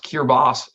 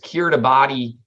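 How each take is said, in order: First: The ending is said like 'bass'. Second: The ending is said as spelled, 'bah-tee'.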